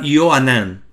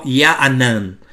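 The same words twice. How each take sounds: First: "Yo Anán" with an O in the first syllable; O vowel. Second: "Ya Anán" with a drawn-out A in the first syllable; A vowel. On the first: Teacher showing viewers the attested form, O vowel in "Yo Anán". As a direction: say "Yo Anán", opening on a clear "yo". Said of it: "usted va a encontrar Yo Anán". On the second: Teacher showing viewers the unattested form, A vowel in "Ya Anán". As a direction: say "Ya Anán", opening on "yaa". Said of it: "pero no Ya Anán". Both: Shown as a demonstration.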